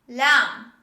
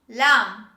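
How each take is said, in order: The two takes are said the same way.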